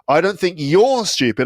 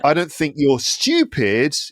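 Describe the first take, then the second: First: The stress falls on the word you're. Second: The stress falls on the word stupid. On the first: Other people are the stupid ones. "I think they're stupid" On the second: The listener is something else, not stupid. "you're just different"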